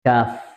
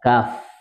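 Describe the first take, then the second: Both takes have the same delivery.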